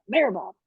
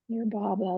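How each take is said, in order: First: It is said in an angry, bratty tone. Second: It is said in a soft, devoted tone. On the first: The speaker is testing and challenging. "And I was mad, ... I was like being a spoiled brat" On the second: The speaker is calling out with reverence. "Not like Mayor Baba, not like that"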